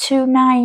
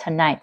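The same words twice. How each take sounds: First: "tonight" high, with a full "too" in front; "tonight" with a heavy, unreduced first syllable; wrong stress. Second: "tonight" with a short, weak "tuh"; "tonight" said tuh-NIGHT; stress on NIGHT. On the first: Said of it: "Không phải là tonight". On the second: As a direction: reduce the start, land on "night" in "tonight". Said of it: "trọng âm ở night". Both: Shown as a demonstration.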